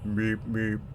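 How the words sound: It is said in a low-pitched voice. "like a low pitch"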